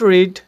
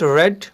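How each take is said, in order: First: The vowel in 'read' is long, like 'reed'. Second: The vowel in 'read' is short, like 'red'. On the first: "इसको रीड और रेड दोनों तरह आप पढ़ सकते हैं" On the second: "इसको रीड और रेड दोनों तरह आप पढ़ सकते हैं"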